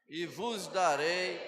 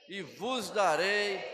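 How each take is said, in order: The two takes are said the same way.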